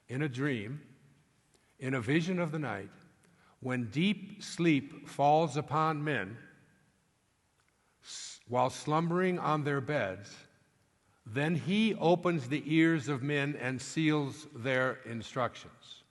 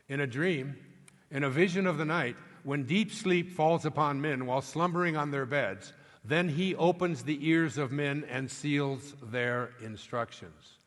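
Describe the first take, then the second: First: The passage is read slowly. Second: The passage is read quickly.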